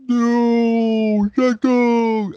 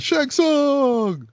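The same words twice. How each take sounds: First: High, loud mock cry of anguish; hammed-up movie yell. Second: High-pitched mock cry of the villain's name; mock dramatic yell. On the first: Mocking how the hero screams at the villain, hammed-up and high. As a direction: overact the hero's scream. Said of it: "it sounds horrible". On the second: Mocking the hero calling out the villain, high hammed yell. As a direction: ham up the shout like the movie hero. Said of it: "But he says it like that".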